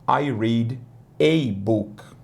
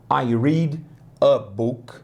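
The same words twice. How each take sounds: First: The article a sounds like the letter ay. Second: The article a is a short weak uh. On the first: "gostam de falar ei" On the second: "a gente fala a"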